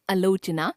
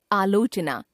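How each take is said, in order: First: आलोचना opening on short "a"; mispronounced first vowel. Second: Said in the usual way. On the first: Shown as a demonstration. Teacher showing a common error, आलोचना with short first vowel. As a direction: start आलोचना with a brief "uh". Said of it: "अशुद्ध". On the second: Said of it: "शुद्ध".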